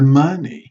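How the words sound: The pitch rises at the end of the word. It ends a yes or no question. "we are going up here at the glide"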